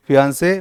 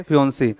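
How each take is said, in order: First: फियांसे said fee-AHN-say with an open a, rising; fiancé pronunciation. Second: फियोंसी said fee-ON-see with a rounded o, ending ee, falling; fiancée pronunciation. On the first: Teacher models फियांसे as fee-ahn-say for the class. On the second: Teacher models फियोंसी as fee-on-see for the class. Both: Shown as a demonstration. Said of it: "इसको बोलते हैं फियांसे और फियोंसी".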